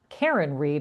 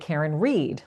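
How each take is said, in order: First: The stress is on Karen. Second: The stress is on Reed.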